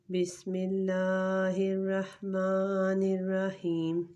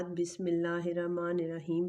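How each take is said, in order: First: بسم اللہ recited slowly in a chanting voice; slow recitation. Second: Said in the usual way. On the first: Shown as a demonstration. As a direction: intone it slowly and reverently. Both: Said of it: "تو شروع کرتے ہیں".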